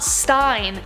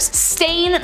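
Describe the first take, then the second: First: The vowel rhymes with 'line'. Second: The vowel rhymes with 'rain'. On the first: The speaker calls it wrong. "not Stein" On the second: The speaker calls it right. "Stain, not Stein"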